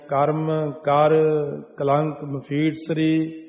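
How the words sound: There is a short pause after the second word. The speaker calls it right. "ਉੱਥੇ ਥੋੜ੍ਹਾ ਰੁਕ ਕੇ dash ਦੇ ਕੇ ਜਾਣਾ"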